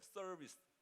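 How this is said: The word has an American English accent. "이게 텍사스 오케이 목장 발음이라고"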